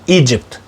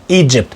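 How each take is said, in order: Both takes have the same delivery.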